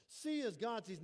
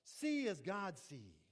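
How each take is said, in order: First: Said in the usual way. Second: "See as God sees" spelled out slowly; slow emphasis. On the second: Shown as a demonstration. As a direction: draw out every word to make it sink in.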